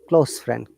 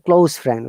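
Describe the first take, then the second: First: The word 'close' ends with a hissing s sound. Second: The word 'close' ends with a buzzing z sound. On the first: The speaker calls it right. "it's close friend" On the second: The speaker calls it wrong. "we don't say close friend"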